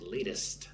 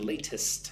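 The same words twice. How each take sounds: First: The middle T is soft, like a D. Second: The middle T is a hard, crisp T. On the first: The speaker calls it right. "the T on the inside of the word is very soft, like a D" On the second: The speaker calls it wrong. "I'm not saying latest"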